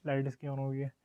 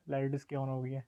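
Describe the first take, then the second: No difference in how they are said.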